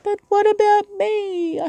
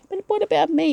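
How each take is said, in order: First: It is said in an exaggerated, dramatic way. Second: It is said in a calmer, plain way.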